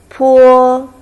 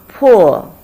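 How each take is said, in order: First: It is said with the first tone. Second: It is said with the fourth tone. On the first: "The first one" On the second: "Fourth tone"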